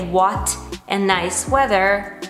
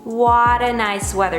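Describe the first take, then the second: First: What and a are said as separate words. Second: What and a blend into one word. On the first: The speaker calls it wrong. "You can also say what a nice weather, but it's not gonna sound as natural" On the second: The speaker calls it right. "Try to link what and a together and make it one word"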